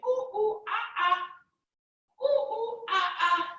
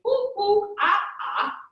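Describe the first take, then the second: First: Monkey calls. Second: Higher, louder monkey ooh-ah; playful monkey noises for kids; monkey calls. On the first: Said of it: "Can you say". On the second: Parent showing kids monkey sounds, playful and higher. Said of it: "be a monkey and say". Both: Pretend.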